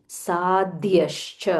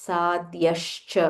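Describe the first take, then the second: Both takes have the same delivery.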